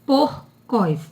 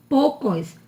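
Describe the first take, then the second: First: PORCOS with the R sounded before the C; correct sounded R. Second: "poucos" as "PO-cos", no R before the C; dropped R. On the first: Teacher correcting poucos to porcos, R clearly sounded. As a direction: say "porcos" as "POR-cos". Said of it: "é porcos". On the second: Teacher showing the word without its R, R dropped. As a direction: say porcos with its R left out, "poucos". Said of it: "Se não tivesse o R". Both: Shown as a demonstration.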